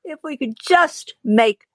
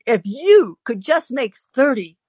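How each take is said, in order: First: Said in the usual way. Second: "you" stretched and higher, the corrected word; stress on YOU. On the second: Retold or imitated. Correcting the quote from we to you, stressing "you". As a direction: lean hard on "you". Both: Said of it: "if you, excuse me".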